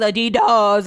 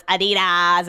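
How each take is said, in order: First: Adidas with a drawn-out DOHS ending; mock Adidas as a-dee-DOHS; exaggerated pronunciation. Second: Adidas with an open AHZ ending; mock Adidas as a-dee-DAHZ; exaggerated pronunciation. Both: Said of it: "He changes the way that I say it".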